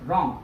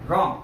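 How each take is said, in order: The two takes are said the same way.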